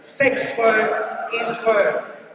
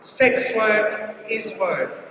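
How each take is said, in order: First: It is said with strong, forceful emphasis. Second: It is said plainly, without extra force.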